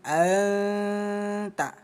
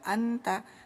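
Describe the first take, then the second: First: The n is nasalized and held two beats. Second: The n is pronounced clearly and briefly. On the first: The speaker calls it right. "tapi anta ya. Hukum ikhfa dibaca samar dua ketukan" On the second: The speaker calls it wrong. "jangan dibaca anta"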